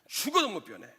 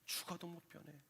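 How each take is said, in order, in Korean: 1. 고집스럽고 도전적인 어조로 말합니다. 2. 따뜻하고 헌신적인 어조로 말합니다.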